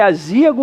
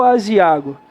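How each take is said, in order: First: Azíago stressed on ZÍ. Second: Aziago stressed on the A after ZI. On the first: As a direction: punch the Í of azíago. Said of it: "A palavra é azíago ou aziago?". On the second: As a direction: move the stress of aziago to the next-to-last syllable. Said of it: "A palavra é aziago". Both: Shown as a demonstration.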